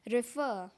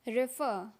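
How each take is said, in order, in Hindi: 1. यह ब्रिटिश लहज़े में कहा गया है। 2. यह ब्रिटिश लहज़े में कहा गया है।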